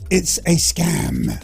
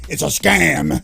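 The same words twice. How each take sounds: First: It is said in the speaker's normal voice. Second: It is said in an exaggerated put-on voice.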